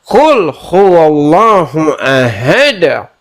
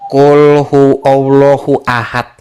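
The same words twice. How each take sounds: First: The final d of ahad is bounced with emphasis. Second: The final d of ahad is plain, not bounced. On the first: The speaker calls it right. "Harus ada, harus ada" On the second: The speaker calls it wrong. "salah, salah, salah"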